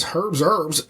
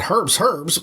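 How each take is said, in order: First: "Herb's Herbs" as "Herb's Erbs"; H then no H. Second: "Herb's Herbs" with H on both words; both Hs sounded. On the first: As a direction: drop the H only on the second word, "Herbs". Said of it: "But he doesn't. He goes". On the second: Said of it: "Varnoth would have said". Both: Retold or imitated.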